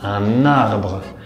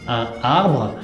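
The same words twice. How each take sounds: First: The n is carried over to start arbre. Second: The n is not carried over to arbre. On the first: The speaker calls it right. "pero decimos un arbre. Es como si la palabra arbre se estaría robando la N de un" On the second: The speaker calls it wrong. "no decimos"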